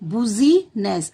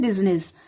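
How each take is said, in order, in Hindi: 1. पहला अक्षर 'boo' जैसा सुनाई देता है। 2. पहला अक्षर 'biz' जैसा सुनाई देता है। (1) "इसको याद कराना है बुजीनेस, बी यू बू" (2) "इसको हम पढ़ते हैं बिजनेस"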